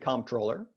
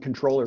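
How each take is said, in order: First: The word is pronounced carefully and deliberately. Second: The word is pronounced loosely and casually. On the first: The speaker is being careful about the title. "if I'm thinking about it, I pronounce it comptroller" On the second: The speaker is not thinking about the title. "if I'm not, or if I'm really worked up about something, I'm the controller really easy"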